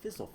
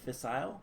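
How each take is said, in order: First: The word is said with an American pronunciation. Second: The word is said with a British pronunciation. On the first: "this is pronounced fissile fuel in America" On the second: "how I pronounced it, fissile, I believe, is um, British"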